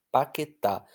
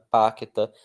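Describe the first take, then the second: First: Paquetá, stressed on the final TÁ; paquetá stressed on the final syllable; stress on the last syllable. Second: Paqueta, with the weight on the middle QUE; wrong stress, middle syllable. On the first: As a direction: punch the end of paquetá. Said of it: "Eu falo com força na última". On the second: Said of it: "eu não falo parana, paqueta". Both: Shown as a demonstration.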